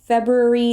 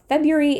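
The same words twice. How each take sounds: First: The R after the B is pronounced. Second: The R after the B is dropped. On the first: "February is technically more correct" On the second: "February is faster to say"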